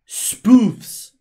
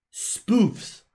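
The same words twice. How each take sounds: First: Spoofs hard en hoog uitgeroepen; nadruk op spoofs. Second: Said in the usual way. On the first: Shown as a demonstration. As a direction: gooi spoofs er luid uit. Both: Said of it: "not proofs".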